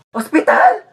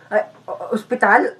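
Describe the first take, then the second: First: High, rising yelp of alarm; alarmed echo, pitched up; startled question. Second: Softer, hesitant feeble question; weakly stammered, faked illness; feigned sick voice. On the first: Acted. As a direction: blurt it out, forgetting to sound sick. Faker startled by hospital threat. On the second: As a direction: catch yourself and sound ill. Faker recovers sick voice after slip.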